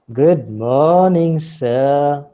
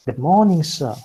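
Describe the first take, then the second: First: Slow, loud, drawn-out "Good morning, sir"; changed greeting tone. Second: Brisk "Good morning" with a falling tune; normal greeting tone. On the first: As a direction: stretch "morning" and "sir" loudly. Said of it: "then the tone of mine would change". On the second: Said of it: "The response would be better". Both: Shown as a demonstration.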